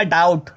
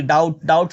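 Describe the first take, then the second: First: Said in the usual way. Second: डाउट said as "daut" with the b silent. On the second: Shown as a demonstration. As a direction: say डाउट with no b sound. (डाउट में बी silent, "डाउट" बोलें) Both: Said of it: "बी silent होता है बच्चों इसमें".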